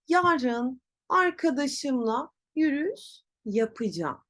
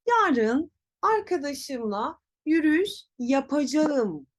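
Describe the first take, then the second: First: Yapacağım as ya-pı-jam; spoken contraction. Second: Yapacağım in full, ya-pa-ja-ım; written form. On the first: Teacher shows pronunciation, yapacağım as yapıcam. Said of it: "Telaffuz nasıl olacak?". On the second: Teacher reads what is written, full yapacağım. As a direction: read yapacağım as spelt. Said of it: "yazıyor". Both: Shown as a demonstration.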